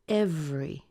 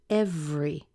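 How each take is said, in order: First: The word is said with two syllables. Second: The same.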